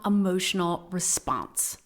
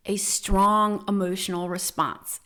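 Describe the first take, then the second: First: Said in the usual way. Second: "A strong emotional response", stressing "strong" and dropping at the end; emphatic repeat. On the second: Shown as a demonstration. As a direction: lean into "strong" and let the line fall.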